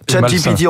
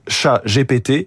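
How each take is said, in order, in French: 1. Le nom se prononce avec des sons anglais. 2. Le nom se prononce avec des sons français. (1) "on va le dire comme ça à l'anglais" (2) "en français, c'est pas terrible. Sinon ça fait chat GPT"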